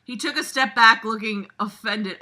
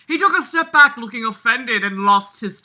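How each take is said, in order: First: Said in the usual way. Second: Louder, hammed-up dramatic reading; dramatic narrator voice. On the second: Shown as a demonstration. Reading the story aloud in a hammed-up dramatic voice. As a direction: read it like a movie-trailer narrator. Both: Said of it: "I'm not doing the dramatic voice".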